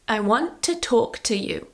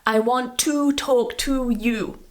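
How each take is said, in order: First: The word 'to' is reduced to a weak vowel. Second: The word 'to' has a full, long oo vowel. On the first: The speaker calls it right. "So we use t" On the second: The speaker calls it wrong. "not to use the oo here, the to pronunciation ... It's too strong"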